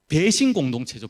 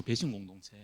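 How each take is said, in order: First: Said in the usual way. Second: 배신 공동체 repeated much softer and lower; quiet repeat. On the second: Shown as a demonstration. Preacher repeating the charge to his church, hushed. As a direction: drop to a near hush on 배신 공동체.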